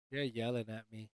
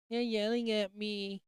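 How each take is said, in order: First: Low, very quiet grumble; mock complaint. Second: High, slow, soft whine; drawn-out mock whine. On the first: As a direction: complain softly and low, playfully hurt. Mock complaint about being yelled at. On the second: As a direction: stretch it out high and softly, mock-wounded. Repeats mock complaint, drawn out.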